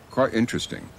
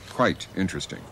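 First: It is said with a Cockney pronunciation. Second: It is said with a standard pronunciation. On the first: "they might say quite interesting" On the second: "for quite interesting"

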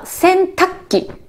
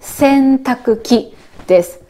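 First: The word is pronounced in a shortened, contracted form. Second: Every syllable is pronounced fully, as written. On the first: This is how most people say it in speech. "私たち発音するとき、話すときは" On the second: This is the form it has in writing. "書いたらね、"

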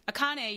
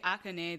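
First: The stress is on the second syllable. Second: The stress is on the first syllable. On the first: "I'm putting it on the second syllable" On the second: "the emphasis is going on the first syllable"

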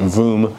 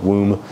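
First: The word begins with a V sound. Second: The word begins with a W sound. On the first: The speaker calls it right. "the W has a more of a V sound, so it's a Woom" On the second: The speaker calls it wrong. "not Woom"

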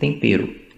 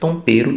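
First: The first vowel sounds like 'eh'. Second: The first vowel sounds like 'oh'. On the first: "ele nunca se esforçou para falar, por exemplo, tempero" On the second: "Ele fala tompero e todo mundo entende"

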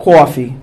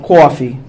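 First: It is said in a strong New York accent. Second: The same.

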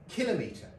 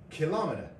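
First: It is stressed like centimetre, on the first syllable. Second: It is stressed like speedometer, on the second syllable. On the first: The speaker calls it right. "the correct pronunciation is in fact kilometre. As in centimetre and millimetre" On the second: The speaker calls it wrong. "the chap said kilometre ... pronounced it wrong"

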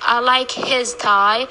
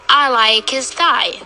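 First: The word 'his' is full, with a clear 'h' sound. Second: The word 'his' is reduced, with no 'h' sound. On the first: The speaker calls it wrong. "We don't say I like his tie. We don't cut in the speech" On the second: The speaker calls it right. "Make it as short and simple as possible"

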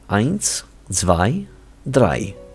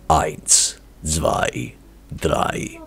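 First: It is spoken in an ordinary voice. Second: It is spoken in an imitated rock-singer voice.

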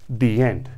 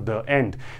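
First: The word the is said with a long ee. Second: The word the is said with a short uh. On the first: The speaker calls it right. "you instinctively utter the words the end" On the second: The speaker calls it wrong. "you do not go for the end"

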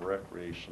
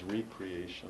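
First: The word begins with a short 'rek' sound. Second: The word begins with a long 'ree' sound. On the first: Leisure activity that overwhelms nature. The speaker calls it wrong. "overwhelm it with recreation" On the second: Being renewed by becoming part of creation again. The speaker calls it right. "becoming part of the creation again"

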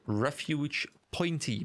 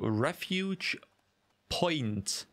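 First: The last word ends with an added ee sound. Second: The last word ends on the t sound. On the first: "because there's an E at the end" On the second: "Is that a silent E? Is it just Refuge Point?"

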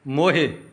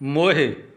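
First: The final vowel is short and clipped. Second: The same.

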